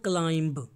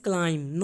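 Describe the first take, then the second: First: "climb" with the B sounded at the end; wrong B sounded. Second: "climb" said as klaim, the B silent. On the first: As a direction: say "climb" wrongly, pronouncing the final B. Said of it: "not climb". ("climb" में गलत तरीके से B बोलना) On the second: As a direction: end "climb" on a clean m, no B sound. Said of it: "B is silent here". ("climb" में B नहीं बोलना, क्लाइम) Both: Shown as a demonstration.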